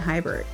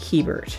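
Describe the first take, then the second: First: The first vowel sounds like 'high'. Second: The first vowel does not sound like 'high'. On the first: The speaker calls it wrong. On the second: The speaker calls it right.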